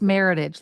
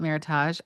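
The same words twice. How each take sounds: First: The ending rhymes with heritage. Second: The ending does not rhyme with heritage. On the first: The speaker calls it right. "like heritage" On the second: The speaker calls it wrong. "I used to call it Meritage"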